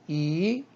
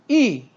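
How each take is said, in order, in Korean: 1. 음높이가 중간에서 높이 올라가요. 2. 음높이가 높은 데서 낮게 확 떨어져요. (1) "이성" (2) "사성"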